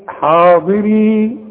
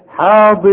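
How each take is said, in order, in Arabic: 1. تنتهي الكلمة بحركة 'ee' واضحة في آخرها. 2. تُحذف حركة 'ee' الأخيرة تماما. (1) "لما اجي اقف عليها اقول ايه؟ حاضري" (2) "وحوصل الياء بتلغى تماما"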